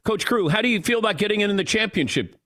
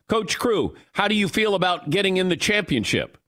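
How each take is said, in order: First: It is spoken casually, like normal speech. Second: Every word is carefully and separately enunciated.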